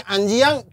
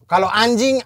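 First: "anjiang" dengan bunyi -iang ala Minang; ucapan Minang. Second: Said in the usual way. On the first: Shown as a demonstration. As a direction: ucapkan "anjiang" dengan tambahan i sebelum ang. ("anjiang" diucapkan dengan -iang ala Minang) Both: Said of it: "kalau di Minang ditambah-tambah".

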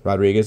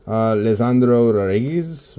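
First: "Rodriguez" anglicized as "RAHD-ree-gez" with an English r; plain American. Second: "Lisandro Rodriguez" said the Spanish way, tapped r, "Rah-ree-gees"; Spanish-style name. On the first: Card opener gives up and says the name like a normal American. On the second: Opening card packs, tries the player's name in Spanish first. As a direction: roll the r in "Rodriguez" and keep the vowels pure. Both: Shown as a demonstration. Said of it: "like a normal American".

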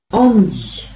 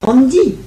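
First: ANDY as a falling statement; settled recognition. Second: Higher, louder startled query; questioning echo. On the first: Old woman recalling her old date, ANDY falling in recognition. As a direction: say ANDY with the tune coming down, as confirmation. Repeats the name, recalling him. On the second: Old woman echoing her interviewer's question, startled. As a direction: toss the name back as a surprised question. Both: Acted.

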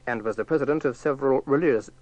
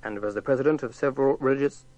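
Both takes have the same delivery.

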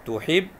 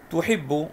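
First: تحب broken as "tuhib - bu"; split doubled letter. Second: تحب read whole as "tuhibbu"; doubled b. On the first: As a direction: split تحب so the b is heard twice. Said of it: "سمعت الباء مرتين". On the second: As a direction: press the double b in تحب, voweled ending. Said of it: "الباء مشددة". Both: Shown as a demonstration.

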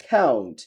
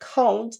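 First: Low American "count" with AE-oo; American accent. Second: High British "count" with AH-oo; British accent. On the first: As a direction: drop "count" as KAE-oont. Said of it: "আমেরিকানরা অ্যাও বলে". (American উচ্চারণে) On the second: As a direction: lift "count" as KAH-oont. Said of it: "ব্রিটিশরা আও বলে". (British উচ্চারণে) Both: Shown as a demonstration.

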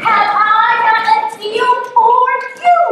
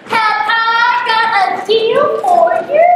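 First: High, loud hawker's offer at normal pace; salesman pitch. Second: High, slow, sing-song huckster offer; salesman pitch. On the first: Yo offers the fisherman a deal, brisk salesman pitch. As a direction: pitch it like a market seller. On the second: Yo offers the grandmother a deal, showman's sing-song pitch. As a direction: sell it like a market hawker. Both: Acted.

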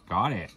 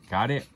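First: "Got it." stated with a falling tune; flat statement. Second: Got it asked with a rising tune; questioning rise. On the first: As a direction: answer "Got it." firmly, falling. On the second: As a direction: ask "Got it?" rising at the end. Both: Shown as a demonstration.

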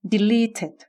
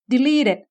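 First: "deleted" as de-lee-ted, aspirated t; clear middle t. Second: "deleted" as de-lee-ded; softened middle t. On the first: Teacher drills second variant, crisp t in deleted. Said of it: "หรือ". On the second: Teacher drills first variant, d-like middle in deleted. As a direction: voice the t of "deleted" toward a d. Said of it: "อ่านออกเสียงรวมกันอีกทีหนึ่ง". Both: Shown as a demonstration.

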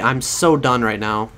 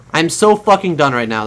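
First: Slow resigned "so done", drawn out; fed up, slow. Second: "so" punched, louder and quicker exasperated repeat; emphatic exasperation. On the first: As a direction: let the words drag in defeat. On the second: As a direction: hit "so" hard, fed up. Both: Real, not acted. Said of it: "I sound angry about it".

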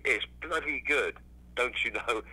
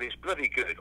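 First: Best English accent. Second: Said in the usual way. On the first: Shown as a demonstration. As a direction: put on your best "don't you know" English accent, drawn out. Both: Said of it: "best English accent".

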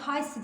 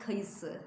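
First: "Kayısı" squeezed to two syllables, kay-sı; "Kayısı" said as kaysı; wrong pronunciation. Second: "kayısı" in three syllables, ka-yı-sı; correct pronunciation. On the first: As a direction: drop the middle ı from "Kayısı". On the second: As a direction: keep the middle ı in "kayısı". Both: Shown as a demonstration. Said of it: "Kayısı değil".

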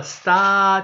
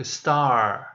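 First: Star said as Japanese su-ta, clipped; wrong katakana way. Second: Star in one syllable, no extra vowel; correct English. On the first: Teacher showing pupils the wrong way, katakana su-ta. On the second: Teacher showing pupils the right way, English star. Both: Shown as a demonstration. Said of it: "できれば、starじゃなく、".

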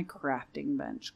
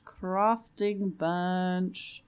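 First: Said in the usual way. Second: "Crafting bench" stretched very slowly; drawn-out. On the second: Real, not acted. Player calling for a lost item, playfully drawn-out. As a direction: playfully drag out both words of "Crafting bench".

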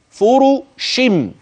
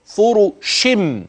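First: فرشم said slowly with the tanween turned into a humming meem; iqlab demo. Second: Said in the usual way. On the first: Shown as a demonstration. Teacher showing students how the nun turns into meem, slowly. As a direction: drawl فرشم, the nun changed to a held meem. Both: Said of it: "فأصبح النطق فرشم".

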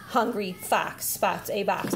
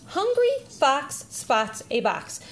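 First: Lightly voiced student, slower, lower and softer; student repeating. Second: Slow, clear model reading; parent reading first. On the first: Student repeats after parent, slow low echo. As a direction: echo the line slowly and quietly, a little lower. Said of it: "Then the student would read". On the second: Parent models a sentence for child, slow read-aloud. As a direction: read it out slowly for a child to copy. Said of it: "So the parent would read". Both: Shown as a demonstration.

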